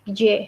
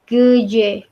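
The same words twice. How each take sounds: First: "geje" quickly, first vowel nearly dropped; pronunciation demo. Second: "geje" in two separate syllables; pronunciation demo. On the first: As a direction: squeeze "geje" into almost one syllable. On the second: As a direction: lengthen the first vowel of "geje". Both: Shown as a demonstration. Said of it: "Bacanya jadi".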